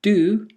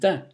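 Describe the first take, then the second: First: It is said with a full, stressed vowel. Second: It is said with a weak, reduced vowel.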